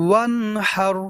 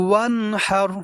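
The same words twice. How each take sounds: Both takes have the same delivery.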